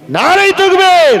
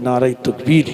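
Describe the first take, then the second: First: High, loud rallying cry; stirring religious slogan shout. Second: Said in the usual way. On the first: Real, not acted. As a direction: call out the takbir with full force. Leads the congregation's slogan.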